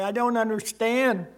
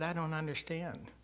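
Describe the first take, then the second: First: Loud, pained plea to heaven; anguished cry. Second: Quiet confusion. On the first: Father praying alone in the yard at night, loud and anguished. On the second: Quiet reply to God. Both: Retold or imitated.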